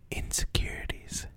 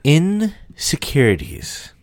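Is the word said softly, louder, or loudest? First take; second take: softly; loudest. First: It is said at a normal, soft volume. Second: It is said at its loudest.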